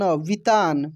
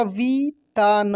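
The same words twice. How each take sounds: First: Said in the usual way. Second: वितान broken into vi, taa, na; syllable by syllable. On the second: Shown as a demonstration. Teacher spelling for learners, वितान syllable by syllable. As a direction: sound out each syllable of वितान. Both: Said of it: "छोटी की मात्रा भी बोलकर".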